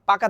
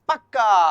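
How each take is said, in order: First: The k sound is short and single. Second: The k sound is doubled and held longer. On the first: "পাকা থেকে কি হবে?" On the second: "দ্বিত্ব ব্যঞ্জন শব্দের জোর দেওয়ার ক্ষেত্রে ব্যঞ্জন দ্বিত্ব হয়।"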